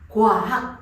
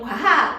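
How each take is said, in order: First: The first syllable is split into two sounds. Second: The first syllable is said as one glide. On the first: "이것을 나눠서" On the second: "우리는 과학 그러잖아요"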